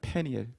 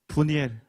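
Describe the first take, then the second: First: The name is said as 'Peniel'. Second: The name is said as 'Bunie-el'. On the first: This is closer to the original language. "히브리식 발음으로 더 정확하게 발음하면" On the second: This is the form used in the translation. "번역하면서 분이엘로 한 거예요"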